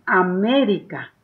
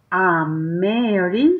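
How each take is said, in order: First: Said in the usual way. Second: "América" slowly broken into syllables, A-mé-ri-ca; "América" stretched slowly, rising at the end; syllable-by-syllable reading. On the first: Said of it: "completa la palabra". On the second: Shown as a demonstration. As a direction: sound out "América" one drawn-out syllable at a time. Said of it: "intentes leer por sílabas".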